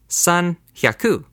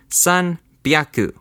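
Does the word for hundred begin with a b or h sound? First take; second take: h; b. First: The hundred part starts with an h sound. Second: The hundred part starts with a b sound. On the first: The speaker calls it wrong. "you would think this is spoken as 산 hyaku" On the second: The speaker calls it right. "let's learn the correct way to say 300"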